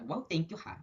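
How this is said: It sounds snippy and sarcastic. Annoyance that the person finally contributed.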